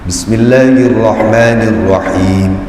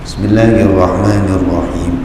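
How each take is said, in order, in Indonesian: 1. Nada rendah, setiap huruf terucap dengan jelas. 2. Nada rendah, huruf-hurufnya digumamkan dan kabur. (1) "harus dilafalkan dengan dengan makhraj tajwid yang benar" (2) "tidak boleh"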